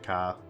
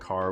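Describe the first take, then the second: First: The R is dropped, ending in an ah vowel. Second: The R at the end is pronounced. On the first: "we say ka. ... the R almost gets replaced with A" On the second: "Instead of saying car"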